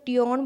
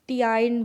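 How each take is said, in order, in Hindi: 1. यह दो अक्षरों में बोला जाता है, tee-on। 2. यह दो अक्षरों में बोला जाता है, tee-ine। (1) "ना ही तो टियोन बोला जा रहा है" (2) "ना ही टियाइन बोला जा रहा है"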